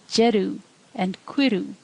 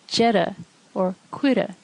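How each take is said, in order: First: The endings sound like oo, Ulster style. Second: The endings sound like eh, southern style.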